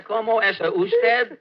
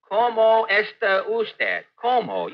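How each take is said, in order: First: First Spanish try. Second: Slow repeat. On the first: Pretend. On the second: Shown as a demonstration. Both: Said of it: "Would you repeat that, please?".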